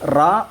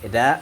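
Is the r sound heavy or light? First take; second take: heavy; light. First: The r is said thick with a full mouth. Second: The r is said thin and light. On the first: "ഈ റാ ആക്കി പറയുന്നത് ശബ്ദം കനപ്പിച്ച് പറയുന്നതാണ്" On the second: "ര ആക്കിയിട്ട് ഓതണം. അതിന് തർക്കീഖ് എന്ന് പറയും"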